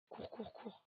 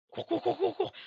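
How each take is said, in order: First: Softer, whispered run run run. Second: Higher, loud panicked chant of cours; frantic yell. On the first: Sneaking past the singing ghost, whisper. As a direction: urge yourself silently. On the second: Player running from the monster, frantic shout. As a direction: urge yourself on in terror. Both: Real, not acted.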